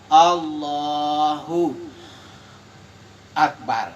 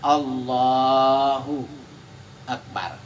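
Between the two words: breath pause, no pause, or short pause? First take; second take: breath pause; short pause. First: There is a pause with an audible breath. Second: There is a short pause without a breath. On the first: The speaker calls it wrong. "itu sudah menghirup napas, itu tidak boleh" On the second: The speaker calls it right. "itu kan berhenti sejenak"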